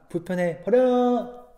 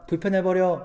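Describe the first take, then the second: First: It is said in an imitated, stylized voice. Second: It is said in an ordinary, plain voice. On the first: The speaker calls it right. "말투를 이렇게 전도사님처럼 따라해야 돼요" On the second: The speaker calls it wrong. "그냥 불편해버려 이게 아니라"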